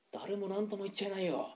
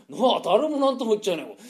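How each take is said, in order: First: Much softer muttered aside. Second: Said in the usual way. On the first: Acted. Gambler muttering to a friend, much softer. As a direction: mutter it under your breath.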